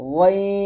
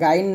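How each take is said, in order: First: The name is said with a thick, heavy sound. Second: The name is said with a thin, plain sound. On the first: The speaker calls it right. "গইন মোটা করবেন" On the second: The speaker calls it wrong. "এটা গাইন না"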